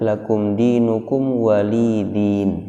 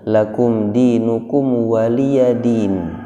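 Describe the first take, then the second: First: The ya is dropped and it ends in din. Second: A voiced ya with a vowel comes before din. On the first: This is another transmitted reading. "ada yang membaca" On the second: This is the familiar local reading. "Yang ada di kita"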